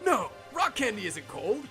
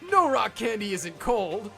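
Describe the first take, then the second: First: There is a clear pause after no. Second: It runs on with no pause after no.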